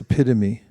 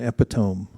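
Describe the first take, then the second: First: The word is said in its usual standard way. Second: The word is sounded out as it is spelled. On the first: The speaker calls it right. "It's epitome" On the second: The speaker calls it wrong. "there is no such thing as an epitome"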